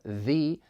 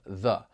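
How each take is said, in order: First: The word is said in its full, strong form. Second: The word is said in its reduced, weak form. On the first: "a strong form" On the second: "a weak form"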